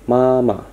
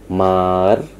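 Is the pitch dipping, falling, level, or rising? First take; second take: level; dipping. First: The pitch stays high and level. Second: The pitch dips down, then rises again. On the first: "nada tinggi tetapi datar, seperti sebuah garis datar" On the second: "nada yang melengkung dari atas turun ke bawah kemudian naik lagi"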